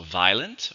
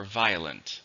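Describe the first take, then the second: First: "violent" in two syllables, VYE-lent; two-syllable pronunciation. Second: "violent" in three syllables, VYE-uh-lent; three-syllable pronunciation. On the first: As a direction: run "violent" together as vile-ent, dropping the middle vowel. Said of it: "they're both okay". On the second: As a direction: give "violent" a clear middle vowel, vi-o-lent. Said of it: "in which case there's three". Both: Shown as a demonstration.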